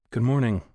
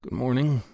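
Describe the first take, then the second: First: Said in the usual way. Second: Sleepy, just-woken mumble; groggy, half-awake greeting. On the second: A narrator's reading. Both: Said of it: "said in a groggy voice".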